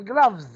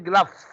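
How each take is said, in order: First: The word ends with a buzzing z sound. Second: The word ends with a hissing s sound. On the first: The speaker calls it right. "Say gloves" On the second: The speaker calls it wrong. "We don't say gloves"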